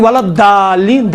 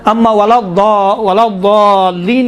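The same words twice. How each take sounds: First: الضالین said with a thin, plain D; plain daal, wrong way. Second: الضالین slow, with a thick, heavy ض; daal-like daad. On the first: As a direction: contrast by giving الضالین an ordinary "daa". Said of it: "ولا الضالین دال ہے نا". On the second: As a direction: demonstrate the correct الضالین, full heavy D-like sound, stretched. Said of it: "دال جیسا ہے". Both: Shown as a demonstration.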